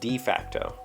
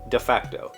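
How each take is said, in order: First: The vowel in 'de' is long. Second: The vowel in 'de' is short.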